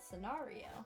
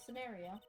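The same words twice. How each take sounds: First: The word is said in a fancier-sounding way. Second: The word is said in a plain, everyday way. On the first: "I don't know why I said it like that" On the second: "I normally say scenario"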